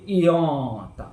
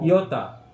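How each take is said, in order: First: The o vowel is long. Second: The o vowel is short. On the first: The speaker calls it right. "Tapi iota. ... Ya, panjang gitu" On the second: The speaker calls it wrong.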